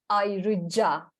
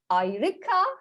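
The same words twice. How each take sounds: First: The consonant before the last vowel is a j. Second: The consonant before the last vowel is a k. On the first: The speaker calls it right. "it is ayrıca" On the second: The speaker calls it wrong. "Is not ayrıca"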